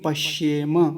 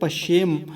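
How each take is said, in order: First: The word ends with a final vowel sound. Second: The word ends on a bare consonant. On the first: The speaker calls it right. "अभी हलंत लगा हुआ नहीं है तो क्या बोलेंगे? पश्येम।" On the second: The speaker calls it wrong. "अगर हलंत होता ऐसे लगा हुआ तो बोलते पश्येम।"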